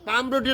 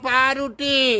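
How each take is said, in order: First: The first syllable ends with an m sound. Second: The first syllable ends with a u sound. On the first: The speaker calls it wrong. "পামরুটি না" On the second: The speaker calls it right. "বলো পাউরুটি"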